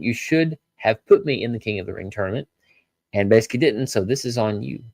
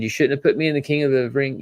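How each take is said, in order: First: Lightly voiced Bron in the speaker's own pitch; mild blame, the fixed wording; quoting Bron, corrected. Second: Lightly voiced angry Bron, a touch higher; half-acted blame, first wording; quoting Bron, first try. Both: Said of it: "And Bron said".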